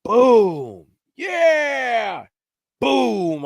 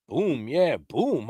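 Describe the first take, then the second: First: Loud, high, drawn-out imitation of gunshots and a holler; imitated shots with a hollered cheer between; booming shots and whoop. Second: Said in the usual way. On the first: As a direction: boom it out with a long triumphant shout. Acts out distant gunshots and holler.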